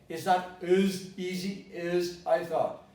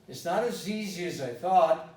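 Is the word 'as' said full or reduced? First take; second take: full; reduced. First: The word 'as' is stressed and fully pronounced. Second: The word 'as' is unstressed and reduced. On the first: The speaker calls it wrong. "I'm not going to say" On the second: The speaker calls it right. "If you don't stress it"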